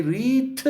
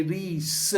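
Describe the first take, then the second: First: Reet with a T ending; wrong pronunciation. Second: Rees with an S ending; wrong pronunciation. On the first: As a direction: imitate a Farsi speaker's reet. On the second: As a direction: imitate a Farsi speaker's rees. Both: Retold or imitated. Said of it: "Both wrong".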